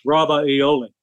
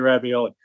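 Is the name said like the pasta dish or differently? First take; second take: differently; like pasta. First: It is pronounced unlike the pasta word. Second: It is pronounced like the pasta word. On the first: This is how the family name is really said. The speaker calls it right. "to pronounce it correctly, it's Ravioli" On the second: This is how other people usually say it. The speaker calls it wrong. "They're going to say ravioli"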